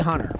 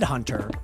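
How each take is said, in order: First: The middle T sound is dropped. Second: The middle T sound is pronounced. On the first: The speaker calls it wrong. "But I say Hunter" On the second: The speaker calls it right. "I know it said Hunter"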